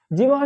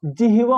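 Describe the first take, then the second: First: जिह्वा as "jiv-ha", h out of place; जिह्वा ending in "ha"; mistaken pronunciation. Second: जिह्वा as "ji-hi-va", h before v; जिह्वा ending in "va"; correct pronunciation. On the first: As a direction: say जिह्वा with v before h. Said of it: "जिह्वा नहीं होता". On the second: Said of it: "जिह्वा होता है". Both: Shown as a demonstration.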